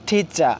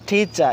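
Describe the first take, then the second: No difference in how they are said.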